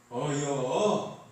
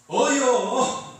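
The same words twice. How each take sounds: First: Very slow, drawn-out Chungcheong 어여; lazy Chungcheong 어여; short Chungcheong reply. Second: Chungcheong 어여 barked much higher and louder; loud, impatient Chungcheong 어여; curt, slightly annoyed. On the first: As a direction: stretch 어여 out slowly, Chungcheong style. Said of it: "충청도는 어떻게 하죠". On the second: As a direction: snap 어여 out with a touch of irritation. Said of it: "약간 좀 화를 내면서". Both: Shown as a demonstration.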